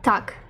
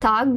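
First: The word ends in a voiceless k sound. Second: The word ends in a voiced g sound. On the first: The speaker calls it right. "вимовляємо «так»" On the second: The speaker calls it wrong. "«таг» пишемо"

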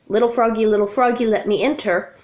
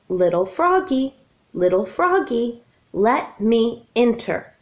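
First: It is said run together without pauses. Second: It is said with pauses between phrases.

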